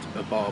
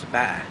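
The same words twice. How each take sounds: First: It is said plainly, with the r sound kept. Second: It is said with the r dropped, a long a.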